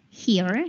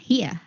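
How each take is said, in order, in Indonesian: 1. Diucapkan dengan aksen non-Inggris. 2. Diucapkan dengan aksen Inggris.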